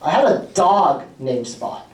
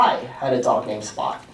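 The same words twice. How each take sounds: First: The word 'dog' carries the main stress. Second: The word 'I' carries the main stress. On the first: The pet was a dog, not another animal. "Spot is not a cat, correct" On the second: The dog belonged to me, not someone else. "It wasn't your dog, it was my dog"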